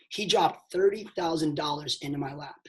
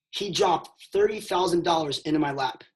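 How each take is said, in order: First: Emphatic repeat with "dropped" hit; stress on dropped. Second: Said in the usual way. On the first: Shown as a demonstration. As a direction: land on "dropped" so they catch it. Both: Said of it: "Pay attention".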